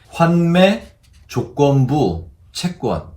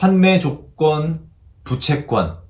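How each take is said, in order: First: The break falls after jogeonbu, before chaegwon. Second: The break falls after jogeon, before bu-chaegwon. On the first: The speaker calls it right. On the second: The speaker calls it wrong.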